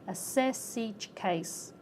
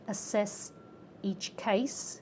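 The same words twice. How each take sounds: First: The final consonants are carried into the next words. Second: The words are said separately, not linked.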